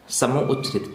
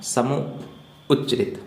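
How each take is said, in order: First: Said in the usual way. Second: समूह उच्चरित stretched syllable by syllable; teacher drawing out समूह उच्चरित so pupils can write it; slow, spelled out. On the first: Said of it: "पांचवा प्रकार है अपना". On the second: Shown as a demonstration. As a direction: say समूह उच्चरित slowly, word by word, for the class. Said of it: "ठीक है ना".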